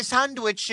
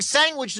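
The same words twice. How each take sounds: First: "sandwich" with a sounded d; careful pronunciation. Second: "sandwich" said as "sangwich"; g in place of d in "sandwich"; mocked pronunciation. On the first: Caller protesting to host, "sandwich" carefully enunciated with d. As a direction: enunciate "sand-wich" carefully. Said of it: "you make fun of me". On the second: Caller protesting the mockery, "sandwich" said "sangwich". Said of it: "make fun of me for saying". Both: Shown as a demonstration.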